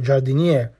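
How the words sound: The final vowel is cut off, Southern dialect style.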